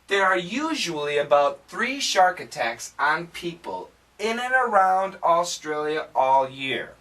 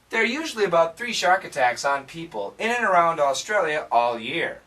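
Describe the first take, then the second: First: The sentence is said at a slower pace. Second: The sentence is said at a faster pace. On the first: "Say it with me" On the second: "Let's say it again, faster"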